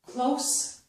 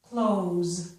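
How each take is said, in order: First: The word ends with an s sound. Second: The word ends with a z sound.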